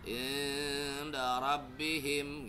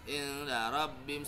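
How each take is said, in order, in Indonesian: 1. Bunyi dengung itu ditahan dua ketuk. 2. Bunyi dengung itu ditahan satu ketuk. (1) "kalau dua ketuk" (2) "satu ketuk"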